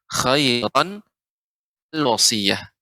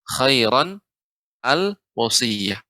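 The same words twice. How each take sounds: Both takes have the same delivery.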